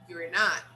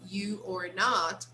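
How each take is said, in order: First: The first two words merge into one syllable. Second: Each word is said fully and separately.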